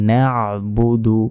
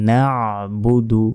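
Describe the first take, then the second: The two takes are said the same way.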